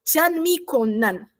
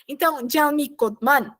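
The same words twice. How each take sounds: First: Janmikonan said slowly, d becomes n; slow model Janmikonan; Janmikonan, careful and slow; correct reading. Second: Janmikodman with a d before m; wrong reading. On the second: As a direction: say Janmikodman, d sounded. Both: Shown as a demonstration. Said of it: "não".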